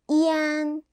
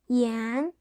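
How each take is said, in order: First: The pitch stays high and level. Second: The pitch rises from mid to high.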